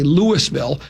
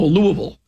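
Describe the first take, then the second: First: Each syllable of the name is said clearly. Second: The syllables of the name are slurred together. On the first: This is how outsiders say the name. "I say Louisville" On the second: This is how locals say the name. "down there they just go Louisville"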